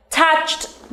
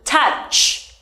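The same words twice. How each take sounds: First: Said in the usual way. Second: "Touched" with ch held, then a separate t; ending first, then T. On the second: Shown as a demonstration. Teacher showing how to add T, sounds separated. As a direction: split "Touched" into touch, brief gap, t. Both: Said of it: "pronounce ending sound first and then add T".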